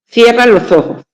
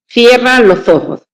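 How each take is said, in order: The two takes are said the same way.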